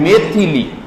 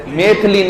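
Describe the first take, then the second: First: मैथिली in three syllables; correct i vowel. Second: मैथिली said as maith-lee; मैथिली with no i after th; wrong, i dropped. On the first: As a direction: clear "thi" in मैथिली. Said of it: "क्या है?". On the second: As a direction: say मैथिली in two syllables. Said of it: "मैथिली नहीं है". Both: Shown as a demonstration.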